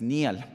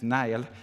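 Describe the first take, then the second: First: The name is said in a Scottish way. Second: The name is said in an English way. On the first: The speaker calls it right. "la pronunciación correcta de los escoceses" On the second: The speaker calls it wrong. "Está la inglesa, que ya saben ustedes un poco bárbara, este, filistina"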